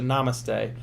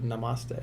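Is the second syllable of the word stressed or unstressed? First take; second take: unstressed; stressed. First: The second syllable is not stressed. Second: The stress falls on the second syllable. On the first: This is how most people say it. "most people pronounce it namaste" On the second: This is the speaker's own preferred way. "I like to pronounce it nama, with the accent on the ma"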